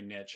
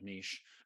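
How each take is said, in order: First: It is said 'nitch', rhyming with riches. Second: It is said 'neesh', not rhyming with riches. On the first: "it flows more if you say niche" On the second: "instead of niche"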